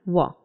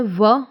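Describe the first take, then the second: First: व open and unbuzzed, like wa; व as a falling, open "wa"; W-like sound. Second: व with friction, like English v; V sound. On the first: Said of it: "एक होता है व". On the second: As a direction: say व as a vibrating v. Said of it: "व बोलने का भी तरीका". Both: Shown as a demonstration.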